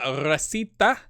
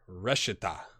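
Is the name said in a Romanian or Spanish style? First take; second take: Spanish; Romanian. First: The name is said with Spanish-style sounds. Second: The name is said with Romanian-style sounds. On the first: "I said that with like a Spanish" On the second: "It's Romanian. Maybe it's Reshita"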